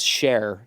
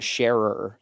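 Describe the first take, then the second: First: The name is said with one syllable. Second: The name is said with two syllables.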